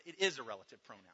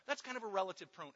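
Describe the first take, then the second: First: "is" hit firmly, quick; stress on is. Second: Said in the usual way. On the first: Shown as a demonstration. Preacher correcting himself, firm stress on "is". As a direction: land hard on "is". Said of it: "It's not kind of a relative pronoun".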